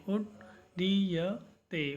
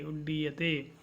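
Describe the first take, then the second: First: उड्डीयते stretched into उड्-डी-य-ते, each syllable apart; slow syllable by syllable. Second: Said in the usual way. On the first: Shown as a demonstration. Teacher drills pronunciation for the class, slowly syllabic. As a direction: sound out उड्डीयते slowly, one syllable at a time. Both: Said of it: "इस प्रकार से आपको इन शब्दों का उच्चारण करना है".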